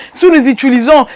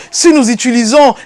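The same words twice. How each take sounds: The two takes are said the same way.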